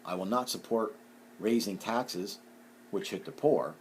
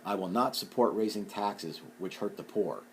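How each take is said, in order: First: There is a pause before "which". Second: It flows with no pause before "which".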